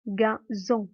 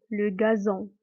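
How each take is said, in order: First: "gazon" split as ga, zon; syllable demonstration. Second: Said in the usual way. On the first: Shown as a demonstration. Teacher letting pupils hear the Z, "gazon" syllable by syllable. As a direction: separate "gazon" into two clear syllables. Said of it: "On entend le son Z".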